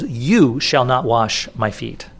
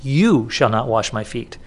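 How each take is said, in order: First: "You" leaned on, slow and deliberate; the pastor hitting "You" to show Peter's focus on who washes; stress on you. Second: "You" stressed again, slow and steady; repeating Peter's words to the congregation with "You" marked. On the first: Press on "You", drawn out. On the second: Weight on "You", unhurried. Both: Shown as a demonstration. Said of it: "That's the emphasis".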